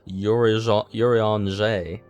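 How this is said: The name is said with a French pronunciation. The speaker calls it right. "I have to pronounce it like I'm French"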